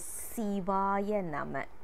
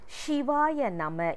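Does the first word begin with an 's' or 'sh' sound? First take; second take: s; sh. First: The first word begins with an 's' sound. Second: The first word begins with a 'sh' sound. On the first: The speaker calls it right. "It is Sivaya Nama" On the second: The speaker calls it wrong. "Shivaya Nama is also a wrong pronunciation"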